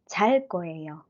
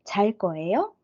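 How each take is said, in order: First: The voice falls at the end. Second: The voice rises at the end. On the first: It is a statement. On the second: It is a question.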